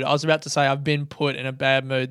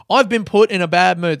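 First: Said in the usual way. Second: "I've been put in a bad mood" quoted louder, stress on "I've"; mock the passive excuse, leaning on "I've"; quoting a phrase. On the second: Shown as a demonstration. Mocking his own passive-voice excuse, stressed quote. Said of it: "That's a nice little linguistic trick".

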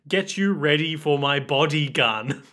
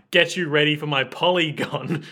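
First: "body gun" as two words, drawn out; misheard lyric. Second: "polygon" with a p and an l; corrected lyric. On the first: Reading out the misheard lyric, "body gun" said slowly. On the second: Reading out the corrected lyric, "polygon" said distinctly. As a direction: say "polygon" clearly as the real word. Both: Shown as a demonstration. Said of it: "the correct lyrics are".

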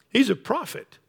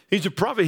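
First: He's lifted high with a rising end; He's sung up, the rest light; stress on He's. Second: Prophet given the weight, plain pitch; stress on prophet. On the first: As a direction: lean on the word He's, higher. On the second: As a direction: land the word prophet firmly. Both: Shown as a demonstration.

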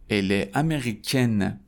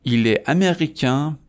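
First: Slow ال امریکن, ending on a full "-ken"; French feminine امریکن with non-nasal vowel and final n; separated, sounded N. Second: ایل امریکن without liaison, rising to a nasal vowel; French masculine امریکن, nasal final vowel, raised pitch; separated, nasal ending. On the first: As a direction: keep ال apart, sound the n in امریکن. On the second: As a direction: keep ایل apart, end امریکن with silent n. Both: Shown as a demonstration.

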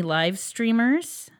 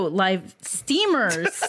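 First: Said in the usual way. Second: "steamers" drawn out very slowly, with a laugh; corrected word. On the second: Real, not acted. Host correcting a misread name, slow emphatic "steamers". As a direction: stretch out "steamers" to stress there is no R after the T.

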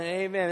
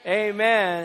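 First: Said in the usual way. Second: A big, louder shouted Amen; rousing Amen to the congregation. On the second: Shown as a demonstration. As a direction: lead the crowd with a loud Amen. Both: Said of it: "everybody said as loud as you can".

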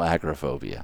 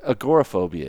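First: Agoraphobia echoed as AG-ra-phobia; imitated mispronunciation. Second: Agoraphobia said as a-GOR-a-phobia; correct pronunciation. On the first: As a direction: quote agoraphobia wrongly, AG stressed, O dropped. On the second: Shown as a demonstration. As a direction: put the stress on GOR in agoraphobia. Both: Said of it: "There is no agoraphobia".

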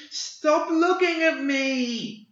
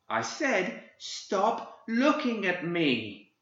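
First: High, loud, drawn-out shriek of rage; tantrum shriek. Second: Put-on high, slow, seething child's voice; in rage. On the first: Acted. Boy shrieking his rage as he bends reality, full tantrum scream. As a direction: let the tantrum explode in one long scream. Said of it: "He shrieked in a tantrum of rage". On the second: Boy turning on the old man, seething with rage. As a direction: hold the fury in, menacing not screaming. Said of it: "The boy turned upon him in rage".

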